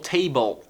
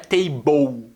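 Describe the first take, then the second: First: The final L touches the tongue behind the teeth. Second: The final L sounds like an 'oo' vowel. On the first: The speaker calls it right. "Ela botou a língua aqui, ó, atrás do dente e falou table" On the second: The speaker calls it wrong. "Não é table, como se fosse ou"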